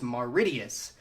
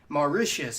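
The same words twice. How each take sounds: First: The middle is said with a t sound. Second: The middle is said with a sh sound. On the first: The speaker calls it wrong. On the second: The speaker calls it right.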